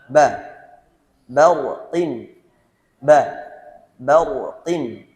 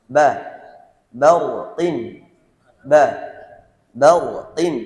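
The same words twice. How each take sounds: Both takes have the same delivery.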